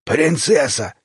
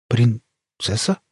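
First: ПРИНЦЕССА stated hoarsely in one go, falling at the end; hoarse confirmation. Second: ПРИНЦЕССА said slowly, haltingly, rising into a question; nervous echoed question. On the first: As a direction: confirm ПРИНЦЕССА firmly in a husky creature voice. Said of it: "хрипло подтвердили хвостатые налётчики". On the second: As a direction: ask ПРИНЦЕССА back with a hesitant break and rising end. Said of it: "шумно сглотнув, переспросил Лёша". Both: A narrator's reading.

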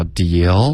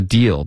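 First: "deal" floating upward like a question; questioning rise. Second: Said in the usual way. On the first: Shown as a demonstration. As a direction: stretch "deal" and lift its end. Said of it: "一下就飘上去了". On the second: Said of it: "这就变成一个疑问句了".

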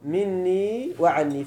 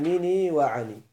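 First: مني وعني with a held double n; full doubled nūn in مني وعني. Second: مني وعني with a single short n; no doubling of the nūn in مني وعني; lightened n. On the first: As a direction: say مني وعني as minnī wa-ʿannī, slowly. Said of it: "المراد بالتخفيف". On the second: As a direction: say مني وعني as minī wa-ʿanī, slowly. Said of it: "خفف ماذا؟". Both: Shown as a demonstration.

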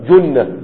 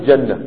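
First: جنة said with a u, "junna"; valid passive form. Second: جنة said with an a, "janna"; rejected active form. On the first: Teacher giving a passive-only verb, passive pronunciation. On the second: Teacher saying this form doesn't exist, active pronunciation. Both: Shown as a demonstration. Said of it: "ما فيش جنة".

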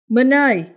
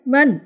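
First: High, loud call across the yard. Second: Higher, loud single-name shout; calling out again. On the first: Friends call Minh from outside the gate, high loud call. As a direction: shout his name toward the house. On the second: Friends call Minh a second time from the gate, higher loud shout. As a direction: call the name once more, sharper. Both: Acted.

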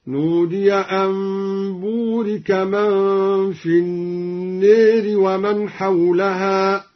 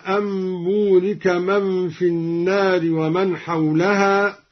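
First: "النار" as an-neer, aa bent to long e; imala. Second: Said in the usual way. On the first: Shown as a demonstration. Teacher demonstrating imala, slow chant with "النار" as an-neeri. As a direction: chant slowly, tilting the vowel of "النار" to e. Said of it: "قرأ الدوري بإمالة النار هكذا". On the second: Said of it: "قرأ الدوري بإمالة النار".

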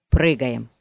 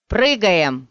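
First: Low, restrained command; contained order. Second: Loud, urgent rallying shout; shouted order. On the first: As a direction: give the order low, without shouting. Order repeated after comforting companion. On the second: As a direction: shout the command to the team. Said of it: "крикнул он". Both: A narrator's reading.

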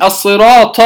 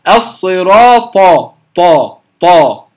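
First: "الصراط" ending in an aspirated heavy t; wrongly aspirated. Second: "الصراط، طا" with a clean unaspirated emphatic t; slow, firm ط in "طا", no breath and no voicing; correct pronunciation. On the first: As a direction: let a puff of air out on the final ط of "الصراط". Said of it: "ولا أخرج معها الهمس". (نطق "الصراط" بطاء مهموسة كالتاء المفخمة) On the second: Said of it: "إنما أقول". (نطق "الصراط، طا" بطاء صحيحة بلا همس) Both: Shown as a demonstration.

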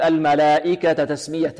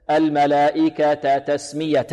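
First: الملائكة تسمية with the two t's hurried together; recited الملائكة تسمية, joining vowel swallowed; snatched vowel, wrong way. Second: Slow الملائكة تسمية with both t's distinct; measured chant, each t of الملائكة تسمية clear; full vowels. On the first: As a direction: demonstrate the fault, clipping the vowel between الملائكة and تسمية. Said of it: "لا نقول". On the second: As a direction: give the last vowel of الملائكة its whole length before تسمية. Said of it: "الاتيان بها كاملة دون اختلاس". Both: Shown as a demonstration.

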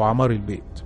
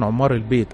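First: عمار said with a short "a", "ʕamar"; alternative pronunciation. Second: عمار said with a short "u", "ʕummar"; first pronunciation variant. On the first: Correcting herself on the spirits' name, alternative "ʕamar". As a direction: say عمار as "ʕa-MAR", opening on "a". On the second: Sheikh naming the house spirits, first variant "ʕummar". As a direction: say عمار as "ʕum-MAR", doubled m. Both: Shown as a demonstration. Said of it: "أو عمار البيت".

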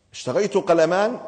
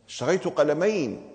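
First: Said in the usual way. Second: قلمين said with the ending een, the accusative; corrected ending. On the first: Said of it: "جوابه صحيح أم خطأ؟". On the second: Real, not acted. Pupil gives the right form قلمين, firmly. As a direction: stress the corrected قلمين clearly. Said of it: "مش قلنا المفعول به منصوب".

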